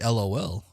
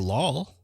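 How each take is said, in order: First: Each letter is said separately. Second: It is said as one word. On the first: The speaker calls it wrong. "I don't say" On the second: The speaker calls it right. "I say"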